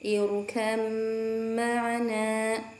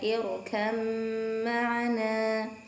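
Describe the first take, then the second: Both takes have the same delivery.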